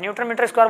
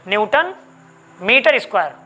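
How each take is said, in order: First: All three words run together without a pause. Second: There is a short pause after the first word. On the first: Both units are squared. The speaker calls it wrong. "बोल देंगे एक साथ में" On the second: Only the second unit is squared. The speaker calls it right. "थोड़ा सा रुकेंगे, इसका मतलब है कि ब्रेक ले रहे हैं"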